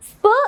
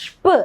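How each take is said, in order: First: "സ്പ്" as sp, with a hissed s; plain S sound. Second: "ഷ്പ്" as shp, sh before the p. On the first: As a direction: start "സ്പ്" on s, not sh. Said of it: "സ്പ് എന്നല്ല നമ്മൾ pronounce ചെയ്യുക". ("സ്പ്" സ് ശബ്ദത്തിൽ) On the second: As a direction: start "ഷ്പ്" with a hushing sh. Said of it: "എസിന് ഷ് എന്നുള്ള sound". ("ഷ്പ്" ഷ് ശബ്ദത്തിൽ) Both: Shown as a demonstration.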